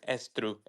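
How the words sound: It is said in a Spanish-influenced accent.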